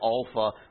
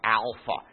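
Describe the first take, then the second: First: The first vowel is not an 'ah' sound. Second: The first vowel is an 'ah' sound. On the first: The speaker calls it right. "Please do say Alpha" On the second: The speaker calls it wrong. "There is no ah sound like that in Greek"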